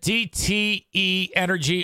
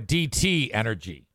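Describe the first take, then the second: First: A separate letter E is said before 'Energy'. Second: No separate letter E is said before 'Energy'. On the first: This is the older way the name was said. "Is it DTE Energy" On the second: This is the newer way the name is said. "or DT Energy?"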